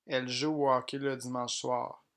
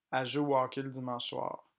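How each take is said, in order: Both takes have the same delivery.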